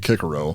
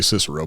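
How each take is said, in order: First: The name is said in its original pronunciation. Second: The name is said in its modern pronunciation. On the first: "but it would actually be" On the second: "It's the modern way to pronounce it"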